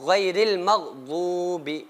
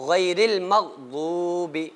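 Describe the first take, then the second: Both takes have the same delivery.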